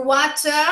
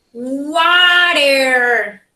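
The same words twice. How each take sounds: First: Water with a clear t and no r; "water" with a hard t and open ending; British water. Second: Water with a flapped t; "water." as wɔtəɹ, American flap. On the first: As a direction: say "water" as wata, crisp t. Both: Shown as a demonstration. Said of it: "Three different pronunciation".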